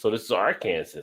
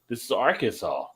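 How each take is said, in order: First: The ending sounds like the word Kansas. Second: The ending sounds like the word saw. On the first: A visitor guesses it from the spelling. The speaker calls it wrong. "there's Kansas, so this is Arkansas" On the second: This is how locals say it. The speaker calls it right. "No, this is Arkansas"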